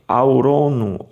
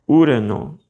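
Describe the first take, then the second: First: The first vowel is split into two sounds. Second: The first vowel is one rounded u sound. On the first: The speaker calls it wrong. "Por que, que você não lê aurono" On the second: The speaker calls it right. "eles se transformarão numa espécie de som de U"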